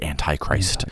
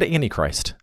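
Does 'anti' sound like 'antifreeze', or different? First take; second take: different; antifreeze. First: The first part does not sound like antifreeze. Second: The first part sounds like 'anti' in antifreeze. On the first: "it might be more accurate" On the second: "like antifreeze"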